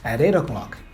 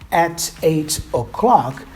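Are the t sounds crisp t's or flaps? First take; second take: flap; crisp t. First: The t sounds are quick flaps linking the words. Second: The t sounds are crisp, clear t's.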